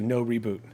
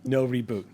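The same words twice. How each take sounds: First: It is said as a question, rising. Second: It is said as a statement, falling.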